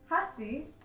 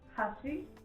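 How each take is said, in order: First: The first syllable carries more emphasis. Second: The word sounds neutral and even. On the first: It means chopsticks. "the one for chopsticks, there's more emphasis on the first syllable" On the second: It means bridge. "the bridge is more neutral sounding"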